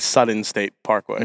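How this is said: The middle sound of Southern is a t sound. "You say Sutton State Parkway"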